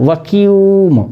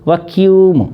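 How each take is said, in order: Both takes have the same delivery.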